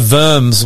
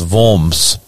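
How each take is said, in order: First: The name is pronounced the anglicized way. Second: The name is pronounced the German way. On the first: The speaker calls it wrong. "what I was saying is wrong too" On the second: The speaker calls it right. "It's Worms if you're in Germany"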